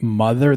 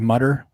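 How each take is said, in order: First: The middle sound is a soft 'th'. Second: The middle sound is a hard 't'. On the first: "they don't say another or mother" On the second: "They say mutter"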